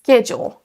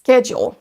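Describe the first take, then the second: First: The word begins with a hard sk sound. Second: The same.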